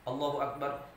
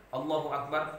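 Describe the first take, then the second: No difference in how they are said.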